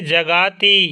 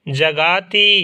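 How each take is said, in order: Both takes have the same delivery.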